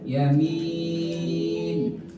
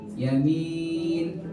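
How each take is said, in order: First: The long vowel is held for six counts. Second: The long vowel is held for four counts.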